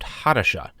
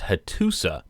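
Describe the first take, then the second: First: The name ends with a sh sound. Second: The name ends with a plain s sound. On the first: The speaker calls it right. "it should be more accurately pronounced Hadasha" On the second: The speaker calls it wrong. "I was pronouncing the Hittite capital as Hattusa"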